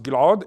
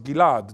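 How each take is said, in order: First: GILAD with a pharyngeal gulp before the second vowel; rejected pronunciation. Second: GILAD run smoothly as gi-LAD, no gulp; correct pronunciation. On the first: Lecturer showing how his name is not pronounced, rejected pronunciation. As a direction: say Gilad as Gil-'ad, gulped in the throat. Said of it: "is not pronounced Gilad". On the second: Lecturer showing how his name is pronounced, correct pronunciation. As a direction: say Gilad with no throat sound, stressed on LAD. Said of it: "it's pronounced Gilad". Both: Shown as a demonstration.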